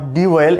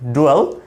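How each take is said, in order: First: An extra i vowel separates d and w. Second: The d runs straight into the w. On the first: The speaker calls it wrong. "Not ডিওয়েল এরকম না" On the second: The speaker calls it right. "আমরা এটাকে ডুয়েল উচ্চারণ করতে পারি"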